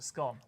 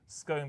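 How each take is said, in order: First: The vowel sounds like the one in gone. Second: The vowel sounds like the one in cone. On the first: It is the scone once it has been eaten. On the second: It is the scone before it is eaten.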